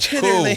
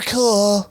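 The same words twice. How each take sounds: First: The final L sound is dropped. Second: The final L sound is clearly pronounced. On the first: It sounds relaxed and flowing. The speaker calls it right. "Don't even say the L in cool" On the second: It sounds like proper, formal talking. The speaker calls it wrong. "You see the difference?"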